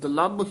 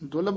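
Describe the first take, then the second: First: The bh consonant is held long and doubled. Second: The bh consonant is short and single. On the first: The speaker calls it right. "ਇਸ ਨੂੰ ਦੁਲੱਭ ਹੀ ਉਚਾਰਨ ਕਰਨਾ ਹੈ" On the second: The speaker calls it wrong. "ਦੁਲਭ ਨਹੀਂ ਕਹਿਣਾ"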